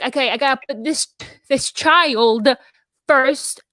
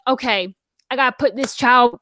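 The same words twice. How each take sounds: First: Said in the usual way. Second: Put-on Southern US accent. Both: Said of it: "I can't stop talking Southern".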